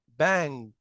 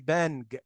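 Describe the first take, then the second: First: One blended ng sound is heard at the end. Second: A separate n then a hard g are heard. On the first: The speaker calls it right. "لا بانج" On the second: The speaker calls it wrong. "ما هوش ان جي، يعني ما اقولش بانج"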